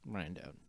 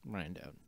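First: It is said in a condescending tone. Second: The same.

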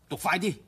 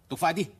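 Both takes have the same delivery.

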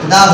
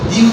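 First: The vowel is a short 'uh' sound. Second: The vowel is a long 'ee' sound. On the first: The next word starts with a consonant. "উচ্চারণ দা হয়ে যায়।" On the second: The next word starts with a vowel. "তখন সেই ক্ষেত্রে আমরা কি উচ্চারণ করবো? দি উচ্চারণ করবো।"

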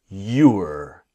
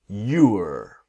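Both takes have the same delivery.

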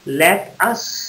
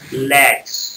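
First: It is said in full as two words. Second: It is contracted into one syllable, lets. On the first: "लेट अस पूरा अगर उच्चारण करते" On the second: "L E T apostrophe S"

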